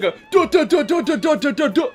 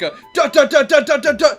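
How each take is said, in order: First: It is said in a breathless voice. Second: It is said in a normal voice.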